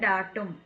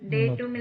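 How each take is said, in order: First: The first vowel sounds like 'ah'. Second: The first vowel sounds like 'ay'. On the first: The speaker calls it right. "நீங்க ப்ரொனன்சியேஷன் மாத்திக்கங்க" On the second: The speaker calls it wrong. "டேட்டும் இல்ல"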